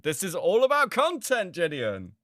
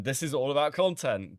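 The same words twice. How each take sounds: First: Higher, louder, hammering the point; loud emphatic repeat. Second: Said in the usual way. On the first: Real, not acted. Streamer telling Gideon it is all content, loud emphatic. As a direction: slam the point home to Gideon.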